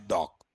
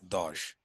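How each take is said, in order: First: The word ends with a k sound. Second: The word ends with an sh sound. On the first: This is the original German pronunciation. The speaker calls it right. "it should be pronounced as a dock" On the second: This is how people in India say it. The speaker calls it wrong. "in India, we pronounce it as what? Dosh"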